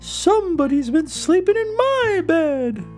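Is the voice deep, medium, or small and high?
medium. It is said in a medium, grumbling voice.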